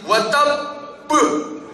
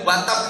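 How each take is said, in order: First: The final b is released with a strong bounce. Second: The final b is cut off plainly. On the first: The speaker calls it right. "tapi watab buh" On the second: The speaker calls it wrong. "tidak boleh watab gitu"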